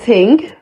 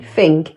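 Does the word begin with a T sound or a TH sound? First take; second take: T sound; TH sound. First: The word begins with a plain T sound. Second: The word begins with a TH sound. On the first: It is the slang form. "Instead of saying ting" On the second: It is the standard form. "you can actually just say thing"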